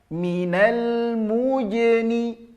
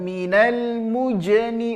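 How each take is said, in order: First: The j sound is soft, made with mid-tongue. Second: The j sound is harsh, made with the tongue tip. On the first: The speaker calls it right. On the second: The speaker calls it wrong.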